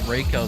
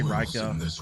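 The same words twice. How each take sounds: First: The first syllable sounds like 'ray'. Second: The first syllable does not sound like 'ray'. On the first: The speaker calls it right. "because the R E I that's like Rey from Star Wars" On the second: The speaker calls it wrong. "so he can't do anything about me mispronouncing his name"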